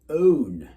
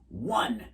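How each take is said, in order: First: The word starts with a plain O vowel. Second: The word starts with a W sound. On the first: The speaker calls it wrong. "you'd think it would be like own, right? But it isn't" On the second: The speaker calls it right. "the O is pronounced like W"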